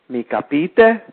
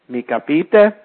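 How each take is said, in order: Both takes have the same delivery.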